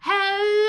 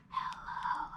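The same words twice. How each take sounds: First: It is said very loudly. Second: It is said very quietly.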